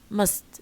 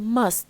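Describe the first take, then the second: First: The vowel is reduced and weak. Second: The vowel is full and strong. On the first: "we usually use the weak forms" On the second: "instead of saying"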